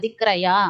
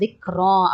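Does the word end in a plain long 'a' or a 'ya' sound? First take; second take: ya sound; long a. First: The word ends with an added ya sound. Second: The word ends in a plain long a. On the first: The speaker calls it wrong. "திக்ரயா அப்படின்னு தெரியாம ஓதிடக்கூடாது" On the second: The speaker calls it right. "இது திக்ரா அப்படின்னு ஓதணும்"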